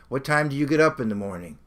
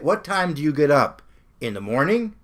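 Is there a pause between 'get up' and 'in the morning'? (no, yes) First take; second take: no; yes. First: It is said without a pause after 'get up'. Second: There is a pause after 'get up'. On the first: The speaker calls it right. "Normally we don't put a comma there" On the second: The speaker calls it wrong. "He put a comma there"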